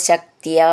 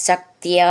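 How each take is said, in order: No difference in how they are said.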